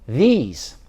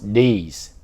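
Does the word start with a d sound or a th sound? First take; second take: th sound; d sound. First: It starts with a soft th sound. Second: It starts with a hard d sound. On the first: The speaker calls it right. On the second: The speaker calls it wrong.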